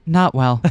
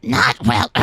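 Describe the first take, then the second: First: Said in the usual way. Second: Gruff hard-boiled detective line; noir detective. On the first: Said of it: "Sorry, wrong Erica". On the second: Acted. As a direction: deliver it like a weary noir detective. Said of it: "You sounded like a detective for a moment there".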